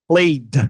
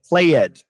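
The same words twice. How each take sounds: First: The ending adds no extra syllable. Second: The ending is said as an extra syllable. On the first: The speaker calls it right. "if you ignore the E, it'll sound much more natural" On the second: The speaker calls it wrong. "Since we learn to read every single syllable in Portuguese, sometimes I'll hear"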